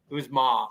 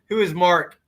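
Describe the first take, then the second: First: The name is said with the R dropped. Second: The name is said with a clear R sound. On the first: The speaker calls it right. "You gotta say it the Brockton way" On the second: The speaker calls it wrong. "you gotta say it right"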